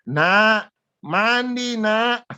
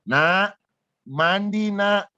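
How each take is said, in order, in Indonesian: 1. Nada suaranya jauh lebih tinggi. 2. Nada suaranya sedikit lebih tinggi. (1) "Saya teriak tambah satu oktav lebih tinggi" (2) "Suara agak lebih tinggi"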